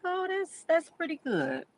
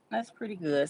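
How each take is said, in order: First: High, delighted "Oh, that's pretty good"; pleasantly surprised. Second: Said in the usual way. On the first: Retold or imitated. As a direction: react with happy surprise to good news. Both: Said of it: "I'm like".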